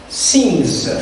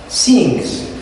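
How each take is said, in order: No difference in how they are said.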